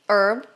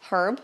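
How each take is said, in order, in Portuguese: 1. A palavra começa sem som de h. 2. A palavra começa com um som de h audível. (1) "existem palavras em inglês que o H não vai ser pronunciado" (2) "mas também a gente pode falar herb"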